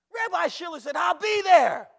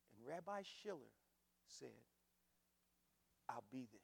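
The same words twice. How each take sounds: First: Full-force high shout; very loud, high, exultant retelling; triumphant preacher's shout. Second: Quiet and low, with long pauses; soft, understated reveal; hushed, weighty telling. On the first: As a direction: holler it out to the whole church. Shouted repeat of quiet line. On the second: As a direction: let each piece land softly, unhurried. Quiet first telling, later shouted. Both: Retold or imitated.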